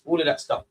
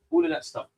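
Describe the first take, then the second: First: Said in the usual way. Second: All of that stuff whispered; hushed repeat. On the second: Shown as a demonstration. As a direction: breathe it out as a whisper. Repeated line, second whispered.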